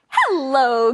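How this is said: It is said in a friendly tone.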